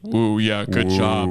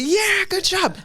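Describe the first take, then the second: First: It is said in a flat, low voice. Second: It is said in a raised, excited voice.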